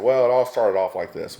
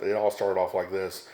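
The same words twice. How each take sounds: First: Storyteller opening. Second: Said in the usual way. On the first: Retold or imitated. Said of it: "and he said". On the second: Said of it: "whenever someone starts off with".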